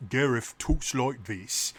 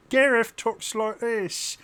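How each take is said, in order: First: Slow Cockney character voice; light Cockney drawl; Cockney accent. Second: Very high, slow comic sidekick voice; high, stretched-out cartoonish voice; Gareth. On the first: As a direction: say it as a laid-back Cockney bloke. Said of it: "that Cockney accent". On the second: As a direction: say it in a silly high-pitched squeak. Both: Shown as a demonstration.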